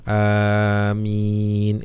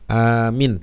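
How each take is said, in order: First: The vowels are drawn out long. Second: The second syllable's vowel is cut short. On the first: O God, grant it. The speaker calls it right. "Yang benar itu panjang" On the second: A person who is safe. The speaker calls it wrong. "Minnya pendek gitu"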